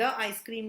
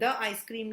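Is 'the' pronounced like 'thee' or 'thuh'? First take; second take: thuh; thuh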